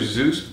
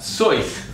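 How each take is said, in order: First: The vowel sounds like the oo in juice. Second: The vowel sounds like the oi in rejoice. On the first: This is the common way the name is said. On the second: This is how the man himself said his name.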